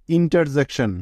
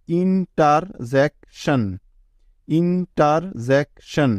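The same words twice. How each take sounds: First: Said in the usual way. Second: interjection drawn out slowly, each syllable apart; teacher slowly sounding out interjection. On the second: Shown as a demonstration. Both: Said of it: "এভাবে ভেঙে ভেঙে উচ্চারণ করতে হবে".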